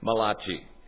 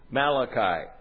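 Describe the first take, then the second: First: The name is said in an Italian way. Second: The name is said in a plain English way.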